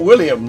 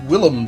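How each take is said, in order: First: The name is said as William, with a y-glide. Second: The name is said as Willem, without a y-glide. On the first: The speaker calls it wrong. "it's not William" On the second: The speaker calls it right. "It's Willem Dafoe"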